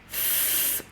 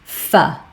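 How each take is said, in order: First: A pure consonant sound with no vowel after. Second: The consonant is followed by an uh vowel. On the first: The speaker calls it right. "F makes a f sound" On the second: The speaker calls it wrong. "but I hear it often as f"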